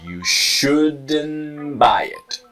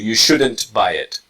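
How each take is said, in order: First: The T drops and N links onward. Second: The T is clearly pronounced before buy. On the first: The speaker calls it right. "the T disappears and the N is strong, connecting to the next word" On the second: The speaker calls it wrong. "Nothing wrong with the first one, but the first one ... is more native"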